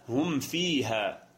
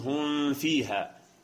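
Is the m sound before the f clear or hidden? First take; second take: clear; hidden. First: The m sound is closed fully and clearly. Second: The m sound is hidden and weakened. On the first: The speaker calls it right. "وإنما هم فيها" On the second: The speaker calls it wrong. "لا تقل هم فيها"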